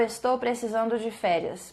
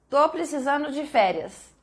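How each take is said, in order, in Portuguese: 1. O verbo é dito por inteiro, como estou. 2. O verbo é encurtado para tô.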